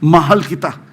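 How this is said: It is said sincerely, from the heart.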